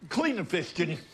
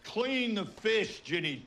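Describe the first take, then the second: First: Brisk request, pitched up; quick, high-pitched instruction; casual order. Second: CLEAN and FISH drawn out slowly; slow, high-pitched "Clean the fish", dropping on "Ginny"; insistent repeat. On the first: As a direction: toss the chore over to Ginny. First order to clean fish. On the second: Repeats order after she complains. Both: Acted.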